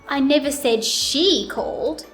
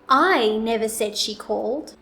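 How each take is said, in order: First: The word "she" is louder, longer and higher. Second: The word "I" is louder, longer and higher. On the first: Somebody other than her called. "Now let's put it on she" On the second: Someone else said she called. "I will place the emphasis on the word I"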